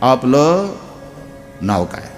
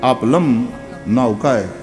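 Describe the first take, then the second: First: The first word ends in l, no m sound. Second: The first word ends with an added m sound. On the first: The speaker calls it right. "નહીં નહીં એવું નહીં બોલો" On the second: The speaker calls it wrong. "લની માથે મીંડું એટલે લમ"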